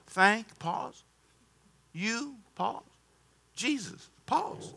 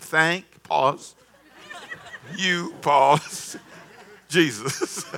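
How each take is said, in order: First: "Thank" pause "You" pause "Jesus" pause, each word alone; slow with pauses. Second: "Thank" pause "you" pause "Jesus" read through laughter; laughing recital. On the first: Shown as a demonstration. Preacher teaching a complaining pastor how to give thanks, slow and spaced. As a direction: spell it out slowly, a beat between words. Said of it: "real slow". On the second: Retold or imitated. Preacher reading the pastor's text aloud, laughing. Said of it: "He WhatsApp me and said".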